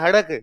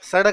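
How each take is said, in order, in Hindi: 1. शब्द h ध्वनि से शुरू होता है। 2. शब्द s ध्वनि से शुरू होता है। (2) "सड़क नहीं है"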